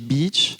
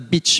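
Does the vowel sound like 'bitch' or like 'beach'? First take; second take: beach; bitch. First: The vowel is long, sounding like 'beach'. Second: The vowel is short, sounding like 'bitch'. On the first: It means a seaside shore. The speaker calls it right. "mais beach" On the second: It means a prostitute. The speaker calls it wrong. "c'était pas beach"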